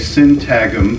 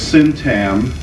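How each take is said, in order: First: The word is said with a G sound. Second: The word is said with no G sound. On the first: "I've heard other people say syntagm" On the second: "I always pronounce it as syntam"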